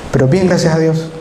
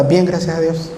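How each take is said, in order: First: "Pero bien, gracias a Dios" repeated as a habit phrase; the stock Salvadoran answer; rote phrase. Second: Stock cheerful "Bien, gracias a Dios"; a rote upbeat answer; automatic reply. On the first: Shown as a demonstration. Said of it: "no me van a dejar mentir". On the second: Retold or imitated.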